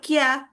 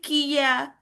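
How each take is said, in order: First: The k and ya merge into one syllable. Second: The ki and ya are two separate syllables. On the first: It is written with a small ya. "kita nggak ngomong Kia" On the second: It is written with a full-size ya. "tapi Kia"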